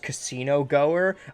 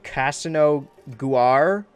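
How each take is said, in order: First: It is said as the plain words casino goer. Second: It is said as a strange alien-sounding name. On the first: It names someone who goes to casinos. The speaker calls it right. "His name was Casino Goer" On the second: It is taken for a Star Wars alien name. The speaker calls it wrong. "I tried to read him, like"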